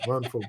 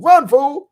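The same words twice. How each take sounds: First: The phrase is said plainly, without extra energy. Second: The phrase is said with lively, punchy energy.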